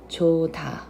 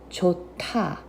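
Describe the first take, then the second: First: The middle consonant sounds like a D. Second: The middle consonant sounds like a T. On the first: "instead of" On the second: "it turns into a T sound"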